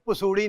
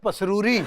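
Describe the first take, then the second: First: The name is said without the r sound. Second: The name is said with an r sound. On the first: The speaker calls it wrong. "पसूड़ी नहीं sir" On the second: The speaker calls it right.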